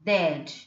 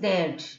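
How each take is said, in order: First: The words merge into one contracted syllable. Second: The words merge into one contracted syllable.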